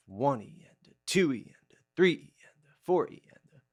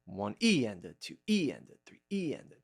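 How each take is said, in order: First: Counting with the number words stressed; accent on the beat. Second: Counting with the E's stressed; accent on the E. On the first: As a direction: hit one, two, three, four harder. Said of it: "I'm gonna accent the, the beat itself". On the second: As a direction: lean on each E, not the number. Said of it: "I'm gonna accent the E". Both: Shown as a demonstration.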